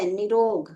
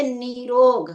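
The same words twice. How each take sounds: First: निरोग with a quick short i; wrong short-i form. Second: निरोग with a stretched "nee"; correct long-ee form. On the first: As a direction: say निरोग as "ni-rog". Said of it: "निरोग भी नहीं होता है". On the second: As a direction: say निरोग as "neee-rog", louder. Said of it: "बड़ी ई की मात्रा लगेगी". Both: Shown as a demonstration.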